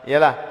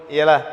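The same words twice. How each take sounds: Both takes have the same delivery.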